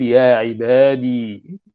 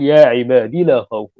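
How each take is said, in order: First: "يا عبادي" drawn out slowly with the final ya clearly held; long ya kept. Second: "يا عبادي لا خوف" read quickly as a mistaken reading, the ya not held; wrong reading demo. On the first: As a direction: stretch "يا عبادي" slowly, sounding the ya at the end. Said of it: "وهو يريد إثبات الياء". (نطق "يا عبادي" ببطء مع إثبات الياء واضحة) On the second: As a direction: rattle off "يا عبادي لا خوف" the way a careless reader would. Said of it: "هذا خطأ". (قراءة خاطئة سريعة لـ"يا عبادي لا خوف" دون إطالة الياء) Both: Shown as a demonstration.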